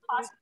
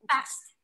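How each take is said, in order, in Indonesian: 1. Vokalnya bunyi 'ah' yang lebar, British. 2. Vokalnya bunyi 'a' yang datar, Amerika. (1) "Sebenarnya boleh fast nih, tapi itu um, British" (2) "pakai e"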